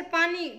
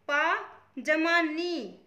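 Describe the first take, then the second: First: Said in the usual way. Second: पा and नी said apart, each held, with a pause between; split into syllables. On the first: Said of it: "पानी में कुल कितने अक्षर हैं". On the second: Shown as a demonstration. Teacher counting the letters in पानी for students, split into syllables. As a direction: break it slowly as पा, जमा, नी. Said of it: "ये अक्षर हो गए".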